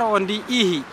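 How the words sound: Said with an h sound, Bakar dialect.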